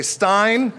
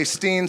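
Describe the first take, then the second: First: Greenstein said with the ending Stein, rhyming with mine, said slowly; pronounced Stein. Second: Greenstein said with the ending Steen, rhyming with seen; pronounced Steen. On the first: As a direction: say Stein with a long i sound, drawn out. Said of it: "some say Stein". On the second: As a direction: say Steen with a long ee sound. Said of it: "Some say Steen". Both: Shown as a demonstration.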